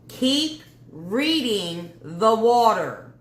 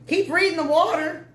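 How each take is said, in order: First: It is said slowly and deliberately. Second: It is said at a normal pace.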